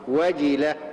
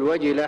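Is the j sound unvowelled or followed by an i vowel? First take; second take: i vowel; unvowelled. First: The j is followed by a clear i vowel. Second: The j sounds without a following vowel. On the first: The speaker calls it right. "الجيم هنا مكسورة" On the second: The speaker calls it wrong. "بعض الناس يقول وجلة، فيعني الجيم مثل الساكنة"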